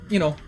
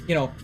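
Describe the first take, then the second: Both takes have the same delivery.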